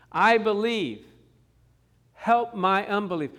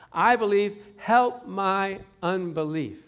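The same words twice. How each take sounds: First: "I believe. Help my unbelief." cried out loud in earnest; crying plea. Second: "help my unbelief" drawn out slowly, loud and pleading; a father begging the Lord with everything; slow crying plea. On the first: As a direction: plead it like a desperate father, voice raised. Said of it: "The man was crying". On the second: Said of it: "he'd say". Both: Retold or imitated.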